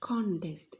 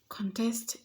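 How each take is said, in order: First: The stress is on the first syllable. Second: The stress is on the second syllable. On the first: It is used as a noun. "not contest is a noun" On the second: It is used as a verb. "Contest is a verb, it will fall on the second syllable"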